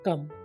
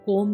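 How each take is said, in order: First: The vowel is a short uh sound. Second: The vowel is a long o sound. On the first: The speaker calls it right. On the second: The speaker calls it wrong.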